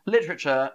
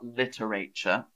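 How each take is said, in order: First: The word is said with three syllables. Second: The word is said with four syllables. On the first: The speaker calls it right. "it's almost pronounced like lit, rich" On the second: The speaker calls it wrong. "not literature"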